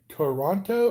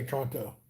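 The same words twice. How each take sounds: First: "Toronto" with all three syllables, "tuh-RON-toh"; full three syllables. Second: "Toronto" squeezed to "TRON-toh"; contracted two syllables. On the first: Streamer asking Canadians about their city, "Toronto" in three syllables. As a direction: keep the first vowel in "Toronto". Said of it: "Do you say Toronto or". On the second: Streamer asking Canadians about their city, "Toronto" contracted to "Tronto". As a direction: drop the first vowel of "Toronto". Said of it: "or do you say Toronto". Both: Shown as a demonstration.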